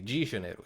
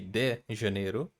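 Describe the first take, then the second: First: The word de begins with a j sound. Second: The word de begins with a plain d sound. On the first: It is how people from the south say it. "in the south we say G" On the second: It is how people from the north say it. "In the north, they can say Rio de"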